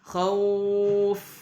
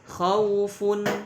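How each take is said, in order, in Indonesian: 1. Kata ini berakhir dengan bunyi f saja. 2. Kata ini berakhir dengan suku kata fun yang utuh. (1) "kalau dibaca waqaf khauf" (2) "contohnya adalah khaufun"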